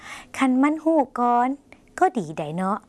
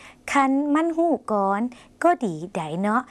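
First: Slow, high คันมันฮู้ก่อน, then a break before ก็ดีไดเนาะ; pause in the phrase. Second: Slow, high คันมันฮู้ก่อน, a pause, then ก็ดีไดเนาะ with a rise; pause in the phrase. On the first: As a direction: split it in two with a clear pause. (เว้นวรรคระหว่าง คันมันฮู้ก่อน กับ ก็ดีไดเนาะ) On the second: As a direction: leave a clear gap mid-sentence. (เว้นวรรคก่อน ก็ดีไดเนาะ) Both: Shown as a demonstration. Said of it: "เว้นวรรคนะคะ".

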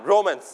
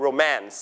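First: "romance" stressed on its first syllable, ROmance. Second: "romance" stressed on its second syllable, roMANCE. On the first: Teacher shows class how not to read "romance", first syllable stressed. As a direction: put the weight on RO in "romance", weak second syllable. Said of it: "ไม่อ่าน romance อันนั้นจะแปลว่า". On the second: English teacher models "romance" for the class, second syllable stressed. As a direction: hit the MANCE in "romance". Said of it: "You stress on the second syllable". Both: Shown as a demonstration.

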